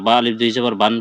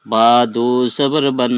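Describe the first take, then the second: First: "বা আলিফ দুই জবর বান" spelled out with the alif read aloud, as the common mistake; wrong reading with alif. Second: "বা দু জবর বান" slow and clear, with no alif, ending on a plain "বান"; correct careful reading. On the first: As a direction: show the mistake by sounding alif before "বান". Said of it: "এটা বিলকুল ভুল". (ভুল পড়া: "বা আলিফ দুই জবর বান", আলিফ উচ্চারণ করে) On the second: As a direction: spell it slowly and correctly, leaving the alif silent. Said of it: "চলো আমরা শুদ্ধ পড়ি". (শুদ্ধ পড়া: "বা দু জবর বান", ধীরে, আলিফ ছাড়া) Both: Shown as a demonstration.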